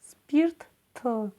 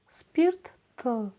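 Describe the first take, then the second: No difference in how they are said.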